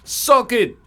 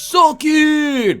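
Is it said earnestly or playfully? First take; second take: earnestly; playfully. First: It is said earnestly, sounding genuine. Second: It is said playfully, as a mock taunt.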